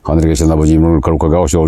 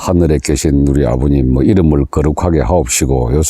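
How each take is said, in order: First: It is said very fast with rolling tongue. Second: It is said plainly at a normal pace. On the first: The speaker calls it right. "아주 빠르게 한번 해보시는 겁니다" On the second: The speaker calls it wrong. "그냥 단순하게 ... 요런 식으로"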